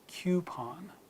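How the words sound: A y sound comes before the first vowel. "words in British ... you'll hear that U sound after the first consonant"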